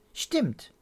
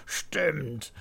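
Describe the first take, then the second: First: Put-on high, short child's agreement; higher-pitched childlike confirmation; agreeing child. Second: Amused grandpa owning up; chuckling old man's agreement; laughing admission. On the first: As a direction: agree promptly like a little girl. Pia agrees with Pitt. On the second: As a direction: say it on the tail of a laugh. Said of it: "lacht Opa". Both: A narrator's reading.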